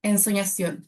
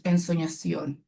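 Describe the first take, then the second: First: Said in the usual way. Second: "Ensoñación" dropped much lower, slowed and dreamy. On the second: Shown as a demonstration. Coach showing a deep, dreamy word. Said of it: "palabras más graves".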